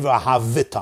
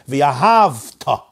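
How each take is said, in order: First: An extra vowel is pronounced before the last syllable. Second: No vowel is pronounced before the last syllable. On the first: The speaker calls it wrong. "It's a moving shva" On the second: The speaker calls it right. "The shva is a silent shva"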